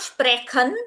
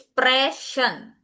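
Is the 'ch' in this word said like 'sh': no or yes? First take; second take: no; yes. First: The 'ch' is not said like 'sh'. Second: The 'ch' is said like a soft 'sh'. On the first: The speaker calls it wrong. "it is not sprechen" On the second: The speaker calls it right. "it is sprechen"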